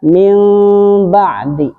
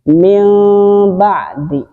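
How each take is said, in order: The two takes are said the same way.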